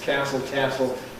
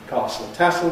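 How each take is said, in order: First: American accent; the two words rhyme. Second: Southern English accent; the two words do not rhyme. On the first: "in American English, they also rhyme" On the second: "In received pronunciation in the south of England, ... castle, tassel don't rhyme"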